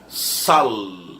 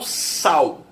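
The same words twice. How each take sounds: First: The final L sounds like a consonant. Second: The final L sounds like a vowel. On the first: This is the original pronunciation, used by older people. "A pronúncia original, né? Com L, com som de consoante mesmo" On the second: This is how most people say it today. "Eu falo sal"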